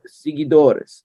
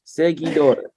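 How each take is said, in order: First: Seguidores drawn out, first vowel like "see"; slurred first attempt. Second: Seguidores with "seh" at the start; corrected pronunciation. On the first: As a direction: say seguidores slowly as "see-gee-DOR-es". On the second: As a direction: say seguidores as "seh-gee-DOR-es", tidying the word. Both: Real, not acted. Stumbles, then corrects own word.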